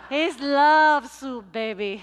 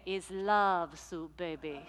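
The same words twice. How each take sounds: First: Stretched out, booming; slow loud proclaim. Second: Laughing softly. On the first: Luisa tells pastor about her soup, slow and booming. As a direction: belt it slowly and proudly. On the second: Luisa answers about her soup. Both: Retold or imitated.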